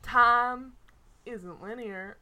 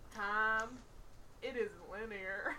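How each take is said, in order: First: It is said without a laid-back drawl. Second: It is said in a laid-back drawl.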